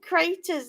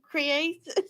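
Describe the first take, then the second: First: The word is squeezed to sound like craters. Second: The word is said in full as creators. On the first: The speaker calls it wrong. "She keeps saying creators" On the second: The speaker calls it right. "instead of creators"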